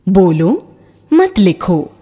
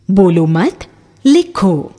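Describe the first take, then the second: First: Slow "बोलो मत लिखो" with "मत" prominent, phrased "बोलो मत, लिखो"; stress on मत. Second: Slow "बोलो मत लिखो" with the weight on "लिखो"; stress on लिखो. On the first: Teacher giving students the other reading, "मत" stressed. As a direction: hit "मत", then pause before "लिखो". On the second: Teacher reading one version to students, slow, "लिखो" stressed. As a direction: read "बोलो मत लिखो" slowly and land on "लिखो". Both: Shown as a demonstration. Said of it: "विराम चिन्ह".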